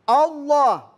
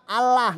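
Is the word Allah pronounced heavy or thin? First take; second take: heavy; thin. First: The word is said with a thick, heavy sound. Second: The word is said with a thin, light sound. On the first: The speaker calls it right. "Tafhim artinya tebal" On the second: The speaker calls it wrong. "nggak boleh dibaca Allah"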